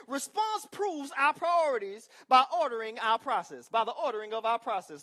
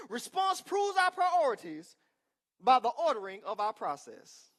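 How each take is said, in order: First: Said in the usual way. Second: Loud, slow, preached emphasis; shouted repeat. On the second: Real, not acted. Preacher shouting his point again to the congregation. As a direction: shout it out one more time to the church. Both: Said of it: "Let me say it one more time".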